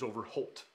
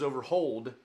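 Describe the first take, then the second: First: The name ends with a t sound. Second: The name ends with a d sound. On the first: This is the newer anglicized pronunciation. "the Anglo new way of pronouncing that is Overholt" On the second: This is the original family pronunciation. "it was Overhold, not Holt"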